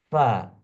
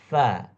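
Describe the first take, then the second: First: Both lips rub together to make the f. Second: Upper teeth touch the inner lower lip. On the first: The speaker calls it wrong. "bergesekan dua bibir ... maka salah bacaannya" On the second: The speaker calls it right. "bacaan yang benar ... gigi bagian atas ... bergesekan dengan perut bibir bagian bawah"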